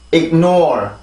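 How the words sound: It is said with English-style syllables. The speaker calls it right. "영어 발음 기호대로 읽어줘야 돼요"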